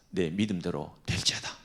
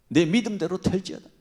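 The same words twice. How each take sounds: First: Said in the usual way. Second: Louder, higher commanding blessing; loud proclamation. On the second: Shown as a demonstration. Jesus pronouncing healing to the blind man. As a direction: declare it with authority.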